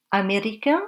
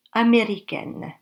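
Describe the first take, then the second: First: Américain ending on a nasal vowel, no n; masculine américain. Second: Américaine ending with an open vowel and a clear n; feminine américaine. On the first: Teacher to learners, masculine form with nasal ending. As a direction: keep américain nasal at the end. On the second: Teacher to learners, feminine form with sounded n. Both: Shown as a demonstration. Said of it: "il n'y a pas de différence".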